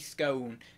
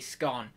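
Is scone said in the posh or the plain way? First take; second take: posh; plain. First: The word is said the posh way. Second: The word is said the plain way. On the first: "it's posh to say scone" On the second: "so I'm going to say scone, because I'm not very posh"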